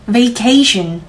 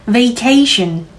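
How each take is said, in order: Both takes have the same delivery.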